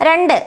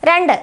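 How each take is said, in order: The two takes are said the same way.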